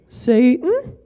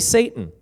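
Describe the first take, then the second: First: It is said in a church lady voice. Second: It is said in his normal voice.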